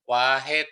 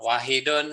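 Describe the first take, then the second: First: The word ends without its final -un ending. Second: The word ends with its full -un ending. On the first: "itu matikan belakangnya juga boleh" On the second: "di lagu itu dibunyikan lengkap"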